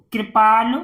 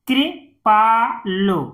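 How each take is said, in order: First: Said in the usual way. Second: "कृपालु" in three separated parts; syllable by syllable. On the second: Shown as a demonstration. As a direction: break "कृपालु" up with pauses. Teacher sounds out, then blends. ("कृपालु" को तोड़कर पढ़ना)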